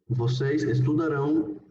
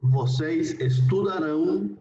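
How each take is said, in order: First: Said in the usual way. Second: Vocês estudarão slow, with a rising end; teacher dictating slowly; slow model pronunciation. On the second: Shown as a demonstration. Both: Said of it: "la conjugación en futuro sería".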